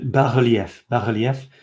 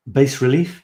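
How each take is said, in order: First: "bas-relief" said the French way, silent S; French pronunciation. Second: "bas relief" anglicised as bass-ri-LEEF; English pronunciation. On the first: Showing viewers the French word, "bas-relief" with French sounds. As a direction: say "bas-relief" as in French, bah-ruhl-YEF. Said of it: "In French, it's". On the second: Unsure how English says it, trying "bas relief" as bass-ri-LEEF. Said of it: "how you say it in English". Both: Shown as a demonstration.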